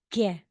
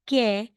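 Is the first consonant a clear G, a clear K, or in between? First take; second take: in between; clear K. First: The first consonant is between K and G. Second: The first consonant is a clear K. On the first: The speaker calls it right. "Parang ge, in between" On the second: The speaker calls it wrong. "hindi talagang ke"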